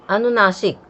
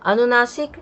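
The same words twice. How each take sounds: First: अनुनासिक said with a falling, final tune; अनुनासिक with a settled downward close. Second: अनुनासिक said higher with a rising end; अनुनासिक with a rising emphatic end; rising tune. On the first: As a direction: state the term अनुनासिक and let it drop. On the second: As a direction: repeat अनुनासिक lifting at the end as if asking. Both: Shown as a demonstration.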